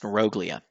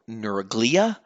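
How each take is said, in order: First: The word's 'neuro' beginning is said differently. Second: The word begins with a full 'neuro' sound. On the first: The speaker calls it right. "technically properly pronounced neuroglia" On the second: The speaker calls it wrong. "I used to always say neur- neuroglia because in neuroscience it's all neuro"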